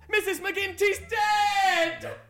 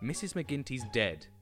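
First: It is read with exclamation, more energetically. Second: It is read flatly, as a plain title.

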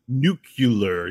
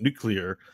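First: The word is said slowly with every syllable. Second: The word is said quickly and run together. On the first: The speaker calls it right. "You didn't go nuclear" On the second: The speaker calls it wrong. "you said it really fast"

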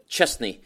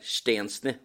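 First: The name is said like an English first name. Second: The name is said with its Polish sounds. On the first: This is a simplification of the name. The speaker calls it wrong. "det bästa britterna då kunde göra var att bara rakt av kopiera förnamnet Szczesny" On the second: This is the name's original form. The speaker calls it right. "hans korrekta uttal är Szczesny"

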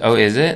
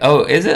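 First: It is said in a sarcastic, snide tone. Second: It is said in a happy, sincere tone. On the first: The speaker doubts or mocks what was said. The speaker calls it wrong. "your tone is like kind of dickish or sarcastic" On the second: The speaker is genuinely pleased by the news. The speaker calls it right. "I'm really happy"

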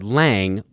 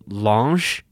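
First: The name is said the American way. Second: The name is said the Italian way.

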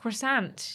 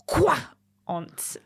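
First: It is said with an American accent. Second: It is said with a French accent.

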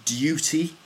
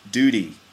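First: The word starts with a 'y' glide, like 'dyoo'. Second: The word starts without a 'y' glide, like 'doo'. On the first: This is the British pronunciation. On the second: This is the American pronunciation.

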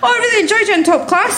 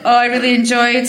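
First: It is said in a plain, sincere way. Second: It is said in a mocking, sarcastic way.

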